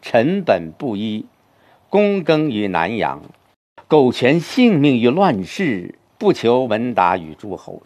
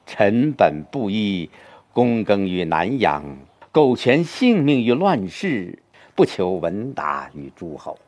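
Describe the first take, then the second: First: It is read as four separate, disconnected sentences. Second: It is read as one connected, flowing sentence.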